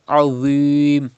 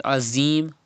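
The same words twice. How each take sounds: First: "Azim" with heavy unwhistled dh; thick Dha. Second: "Azim" with a thin buzzing z; mistaken whistle. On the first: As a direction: round and darken "Azim", holding the ee. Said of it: "without whistle and thicker voice". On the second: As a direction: say "Azim" with a light English z. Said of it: "Do not read Azim". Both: Shown as a demonstration.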